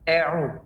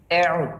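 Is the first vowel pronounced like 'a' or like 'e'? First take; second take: e; e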